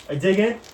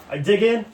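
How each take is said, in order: Both takes have the same delivery.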